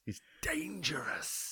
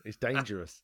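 First: Slow hushed whisper; slow spooky whispered tease; mock whisper. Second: Said in the usual way. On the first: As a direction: whisper it like a scary secret.

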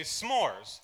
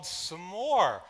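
First: "s'mores" as one syllable, smores; friend's pronunciation. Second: "s'more" as two syllables, suh-more; his pronunciation. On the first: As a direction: say "s'mores" quickly as a single syllable. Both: Shown as a demonstration. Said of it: "if you say s'mores or s'mores".

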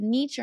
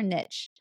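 First: "niche" said as NEESH or NEECH, long vowel. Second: "niche" said as NITCH, short vowel. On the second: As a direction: say "niche" to rhyme with "rich". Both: Shown as a demonstration. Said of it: "Is it niche or niche?".

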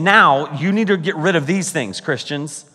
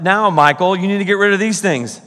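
First: Said in the usual way. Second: Mock personal rebuke. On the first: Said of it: "He's saying". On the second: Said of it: "It's like".

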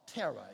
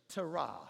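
First: Terah said as TERR-uh; stress on first syllable. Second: Terah said as tuh-RAH; stress on second syllable. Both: Shown as a demonstration. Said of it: "if you like to pronounce it that way".

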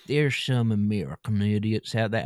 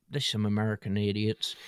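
First: Put-on American idiot accent; hammed-up dim American accent; mock American accent. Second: Said in the usual way. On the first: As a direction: say it as a caricature American. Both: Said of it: "they don't speak like that".

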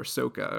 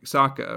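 First: "Sokka" with a long "oh": SOH-kuh; "Sokka" rhyming with "mocha"; alternative pronunciation. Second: "Sokka" with an open "ah": SAH-kuh; "Sokka" rhyming with "mocha" avoided, open first vowel; first pronunciation. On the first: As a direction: say "Sokka" as SOAK-uh. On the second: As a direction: say "Sokka" as SOCK-uh. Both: Shown as a demonstration. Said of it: "however you say his name".

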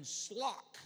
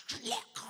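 First: "slock" with an L slid in after the s; L added after S. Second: "slock" hacked up from the throat as if full of phlegm; throaty, phlegm-filled. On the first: Preacher teaching congregation a Greek word, demonstrating "slock". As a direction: put an L into sock, "slock". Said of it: "put an L in there". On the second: Preacher shows how Greeks talk, exaggerated throaty "slock". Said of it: "come out of your throat". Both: Shown as a demonstration.

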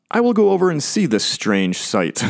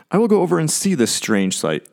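First: Higher-pitched Moses, wondering aloud; Moses marvelling. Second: High opening sliding down, as Moses; Moses marvelling. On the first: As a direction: act out Moses curious at a strange sight. Moses' thought, speaker doubts that's his voice. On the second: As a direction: voice Moses' curious thought aloud. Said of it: "I always wonder if that's how he says it". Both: Acted.

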